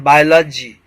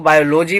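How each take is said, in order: First: "बायोलॉजी" said bye-la-jee with reduced vowels; correct pronunciation demo. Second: "बायोलॉजी" said bio-LO-jee with full o vowels; common mispronunciation demo. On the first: Teacher correcting a common error, "बायोलॉजी" as bye-la-jee. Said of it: "का लजी pronunciation होता है". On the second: Teacher quoting how many people read it, "बायोलॉजी" as bio-lo-jee. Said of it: "बहुत से लोग बायोलॉजी पढ़ते हैं". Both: Shown as a demonstration.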